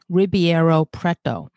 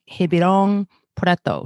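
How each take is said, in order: First: The name is read as English spelling suggests. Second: The name is said with a Portuguese-like ending. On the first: "it looks like in English" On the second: "I recall my father saying"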